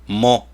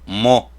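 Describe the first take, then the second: No difference in how they are said.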